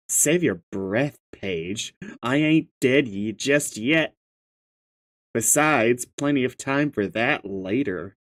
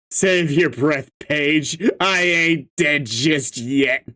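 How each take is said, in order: First: Low, softer in-character read. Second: Said in the usual way. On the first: Acted. Telling Paige to save breath, low character voice. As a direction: drop the pitch and deliver it restrained. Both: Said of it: "gotta read this in the correct voice".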